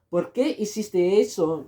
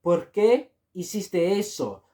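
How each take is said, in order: First: Said in the usual way. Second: ¿Por qué hiciste eso? said slowly; slow model phrase. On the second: Shown as a demonstration. Teacher slowly models ¿Por qué hiciste eso? for learners. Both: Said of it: "you can also say".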